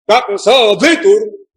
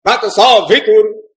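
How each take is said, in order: First: Slow तत्सो भितुर with accents swapped; reversed Vedic accent. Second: Slow chanted तत्सो भितुर, accent on सो; correct Vedic accent. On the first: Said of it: "इसको उल्टा कर दे अगर". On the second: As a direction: intone तत्सो भितुर with सो raised. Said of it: "इस सा के ऊपर". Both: Shown as a demonstration.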